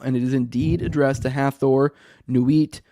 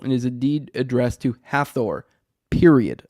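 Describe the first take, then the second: First: Hathor runs on into the list without a stop. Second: The sentence ends with a full stop after Hathor.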